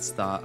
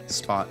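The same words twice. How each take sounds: First: The s sound is pronounced with a lisp. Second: The s sound is pronounced clearly. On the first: The speaker calls it wrong. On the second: The speaker calls it right.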